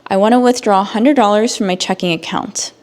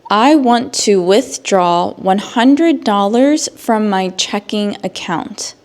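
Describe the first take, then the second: First: The sentence is spoken at a fast pace. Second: The sentence is spoken at a slow pace.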